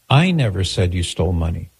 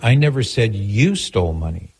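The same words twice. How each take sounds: First: The stress is on the word I. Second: The stress is on the word you.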